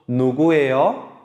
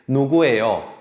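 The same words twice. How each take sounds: First: The voice rises at the end. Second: The voice falls at the end.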